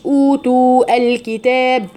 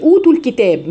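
First: أوتوا الكتاب broken apart, second oo held and a separate al; وصل خاطئ. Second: أوتوا الكتاب joined, second oo shortened into the ل; حذف الواو الثانية. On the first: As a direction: stretch أوتوا fully, then restart on الكتاب. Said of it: "ما قلتش". (أوتوا الكتاب بإثبات الواو والهمزة) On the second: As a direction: link أوتوا straight into الكتاب without a hold. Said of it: "اتلغت". (وصل أوتوا بالكتاب بحذف المد) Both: Shown as a demonstration.

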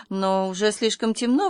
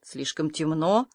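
First: Objecting. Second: Low, soft, slow questioning repeat; incredulous echo. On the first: A narrator's reading. Anya objects to Marilla's errand, protesting. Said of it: "возразила Аня". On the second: Acted. Marilla doubts Anya's excuse, incredulous.

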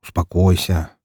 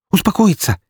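First: Steady someone who is worked up; calm, unhurried reply. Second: High-pitched, indignant echo; agitated woman's exclamation; outraged. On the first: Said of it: "Я же оказался спокойнее". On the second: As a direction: throw the word back in outrage. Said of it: "Её аж трясло от злости". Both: A narrator's reading.

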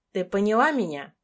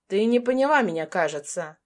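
First: Said in the usual way. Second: Fast menacing hiss, fading on the last word; quick hissing menace; hissed threat. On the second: A narrator's reading. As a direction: hiss it into her face. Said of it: "прошипел он практически мне в лицо".

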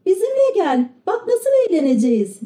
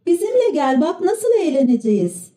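First: Mild narrated shout, pitched high; high, eager child call without real volume; children's shout. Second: Put-on one reader suggesting children shouting together, mildly; high group-style call without real volume; chorus shout. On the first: A few children urge Pinokyo to come along, high mild shout. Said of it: "diye bağırdılar". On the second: All the children urge Pinokyo together, mild high chorus shout. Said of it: "çocuklar koro halinde bağırıştılar". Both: A narrator's reading.

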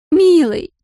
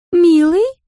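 First: High, demanding "Милый!" falling firmly; drunk woman insisting. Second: Put-on high, questioning drunken "Милый?" rising at the end; drunk woman calling. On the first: Drunk Larisa insists to Ramsey, high falling "Милый!". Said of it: "Вид у неё был грустный, рассеянный". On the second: Drunk Larisa calls to Ramsey, high rising "Милый?". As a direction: call out "Милый?" as a tipsy, wistful question. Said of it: "заговорила она". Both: A narrator's reading.

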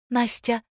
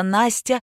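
First: Настя said slowly with a rising lift; name Настя, high and drawn out; solemn. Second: Said in the usual way. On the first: A narrator's reading. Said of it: "торжественно объявила Ляля". (торжественно: Настя)

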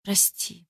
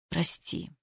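First: Whispered, much softer, near tears; a breathy tearful sorry; through tears. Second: Barely audible, choked-out sorry; muffled forced apology. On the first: Eva repeating her apology, whispering through tears. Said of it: "повторила сквозь подступившие слёзы". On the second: Eva to Ruslan, muffled and choked. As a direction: squeeze the word out, much softer. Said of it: "глухо выдавила я". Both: A narrator's reading.

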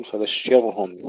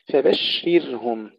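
First: فبشرهم with a thick, heavy ر; wrong heavy ra. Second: فبشرهم with thin ر, said slowly; correct light ra. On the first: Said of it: "يفخمون الراء وهي مرققة". (فبشرهم بتفخيم الراء خطأ) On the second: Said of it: "أيضًا هنا يكثر الخطأ". (فبشرهم براء مرققة) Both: Shown as a demonstration.

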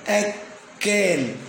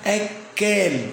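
First: أكال drawn out slowly with the kaf held long, akkaal; أكال slowly, kaf clearly doubled. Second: Said in the usual way. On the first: Shown as a demonstration. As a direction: stretch أكال and lean hard on the doubled kaf. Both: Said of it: "الكاف مشددة مضاعفة".

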